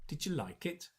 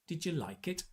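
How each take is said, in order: First: The words run together like one word. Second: The same.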